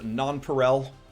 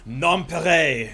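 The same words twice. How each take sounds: First: The word is said with an English accent. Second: The word is said with an exaggerated French accent. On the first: The speaker calls it right. "In English, it is Nonpareil" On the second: The speaker calls it wrong. "My background of learning French in high school made me be like, ah"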